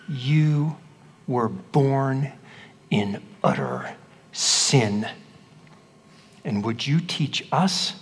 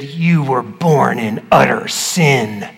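First: Slow, soft, heavy stress falling on "sin"; special emphasis. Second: Slow, weighty stress landing on "You" and "sin"; special emphasis. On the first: Acted. Pharisees condemn the blind man, slow and contemptuous. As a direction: drag out "in utter sin" low and scornful. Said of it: "I used a special emphasis when I read it". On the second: Shown as a demonstration. Preacher re-demonstrates the Pharisees' line, slow and pointed. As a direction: lean hard on "You" and draw out "utter sin". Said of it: "I used a special emphasis".

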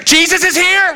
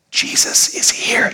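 First: High-pitched hammed-up scream; overemotional drama queen. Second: Slow stage whisper; hushed announcement. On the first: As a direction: squeal the news like a drama queen. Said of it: "Very emotional". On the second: Acted. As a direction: whisper the news slowly. Mary quietly announces Jesus first.

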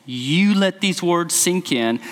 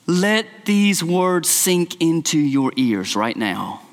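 First: "You" pressed firmly, the rest slow and deliberate; slow emphatic "You" at the start; stress on YOU. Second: Slow, deliberate, each word set down; slow earnest stress on these words; slow emphatic charge. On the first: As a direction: lean hard on "You" and slow down. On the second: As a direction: press the words home like to a child. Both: Shown as a demonstration. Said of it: "The "you" is emphatic".

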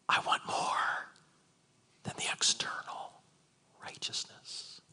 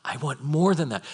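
First: Whisper. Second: Said in the usual way. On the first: Acted. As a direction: whisper it as a solemn demand. Christ's words whispered, then asked if heard.

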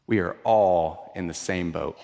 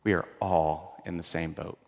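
First: Said in the usual way. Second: Hushed repeat. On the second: Shown as a demonstration. Preacher to the congregation, softly sinking. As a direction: drop it much softer and lower, almost to a murmur. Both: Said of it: "repeats the line twice".

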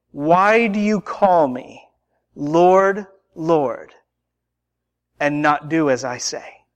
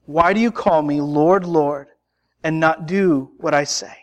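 First: Slow question with long pauses; slow, solemn rebuke. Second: Said in the usual way. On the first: Acted. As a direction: space out each phrase, dropping low at the end. Jesus' rebuke, first take.

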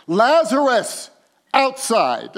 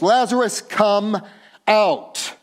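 First: Loud, higher and slow call; loud cry. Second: Loud, higher call; loud cry. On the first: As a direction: summon him outside. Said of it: "cries out with a loud voice". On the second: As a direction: call him out of the tomb. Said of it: "he cries out with a loud voice". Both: Acted.

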